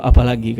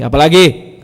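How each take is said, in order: First: Mild, softened question; gentle. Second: Loud, curt retort; brusque intonation. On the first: Prophet invites companion's further question, gently. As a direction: ask kindly, without pushing. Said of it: "cerita kelembutan Rasulullah". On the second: Prophet asked again, voiced in preacher's own brusque way. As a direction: throw the question back roughly, with force. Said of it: "itu saya yang bikin intonasinya". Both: Retold or imitated.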